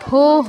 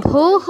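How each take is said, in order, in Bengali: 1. এটি o স্বর দিয়ে বলা হয়, bhoh। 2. এটি o স্বর দিয়ে বলা হয়, bhoh।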